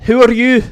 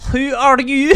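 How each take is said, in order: First: Loud shout, pitched up. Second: Put-on high, loud Russian German accent, trying it out; first stab at a Russian German accent. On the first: Acted. GM's stranger shouts at the party, loud shout. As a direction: bellow the question at the strangers. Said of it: "He just kinda shouts out". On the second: GM voicing a blue-skinned stranger, high loud Russian German accent. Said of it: "do a Russian German accent".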